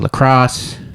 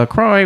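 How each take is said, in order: First: The name ends with a 'cross' sound. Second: The name does not end with 'cross'. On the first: "It's actually lacrosse" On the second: "You said it was lacrosse"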